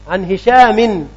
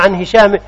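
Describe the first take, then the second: First: The name ends with an added n sound. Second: The name ends without an added n sound. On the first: "بالتنوين" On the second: "أم بغيره"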